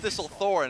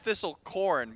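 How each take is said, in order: First: The last syllable sounds like thorn. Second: The last syllable sounds like corn. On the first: The speaker calls it right. "I'm pretty sure it's Thistlethorn" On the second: The speaker calls it wrong. "I've said Thistlecorn"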